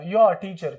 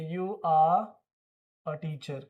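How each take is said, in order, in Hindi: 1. You और are एक ही अक्षर में मिल जाते हैं। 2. You और are अलग-अलग शब्दों की तरह बोले जाते हैं।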